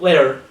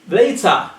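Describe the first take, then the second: First: The T is pronounced like a soft D. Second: The T is pronounced as a crisp T. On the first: The speaker calls it wrong. "not a D" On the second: The speaker calls it right. "it has to sound like T"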